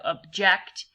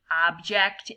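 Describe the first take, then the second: First: Slow object with the weight on JECT; stress on second syllable. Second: Slow object with a full o in OB; stress on first syllable. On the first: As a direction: object as the verb uhb-JECT. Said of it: "instead of". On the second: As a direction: object as OB-ject, the noun way. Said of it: "make the mistake of saying". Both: Shown as a demonstration.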